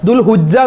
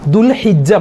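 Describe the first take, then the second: First: A 'u' vowel follows the 'h'. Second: An 'i' vowel follows the 'h'. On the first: The speaker calls it wrong. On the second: The speaker calls it right.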